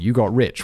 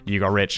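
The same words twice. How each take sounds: First: It sounds impressed and admiring. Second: It sounds doubtful and suspicious. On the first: Getting rich earns respect. "rich people in America are held in higher regard" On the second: Getting rich implies dishonesty. "Who did you scam?"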